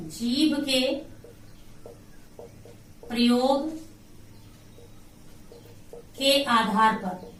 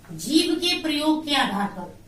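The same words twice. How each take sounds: First: Slow, broken-up teacher's dictation. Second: Said in the usual way. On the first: Shown as a demonstration. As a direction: piece by piece with long pauses. Dictates phrase while writing it.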